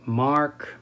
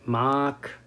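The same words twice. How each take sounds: First: The R after the vowel is pronounced. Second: The R is dropped and the vowel lengthened.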